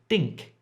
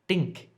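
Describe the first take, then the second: First: The first sound is d-like, tongue curled up. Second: The first sound is d-like, tongue curled up.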